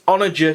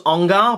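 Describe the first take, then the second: First: The word is said with three syllables. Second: The word is said with two syllables. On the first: The speaker calls it right. "That is the correct pronunciation of it as well" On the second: The speaker calls it wrong. "I thought it was Ongar"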